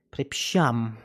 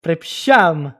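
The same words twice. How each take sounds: First: A lower, softer Polish sorry; quiet apology. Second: A louder, emphatic Polish sorry; loud apology. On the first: Apologising again to the stranger, a lower, softer sorry. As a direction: murmur the apology down low. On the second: Apologising to the stranger in mock Polish, a louder sorry. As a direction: blurt the apology out. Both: Pretend.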